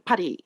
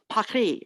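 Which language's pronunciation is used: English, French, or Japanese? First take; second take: Japanese; French. First: It is pronounced the Japanese way. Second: It is pronounced the French way. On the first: "in Japanese it's pa- Paris" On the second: "in French it's Paris"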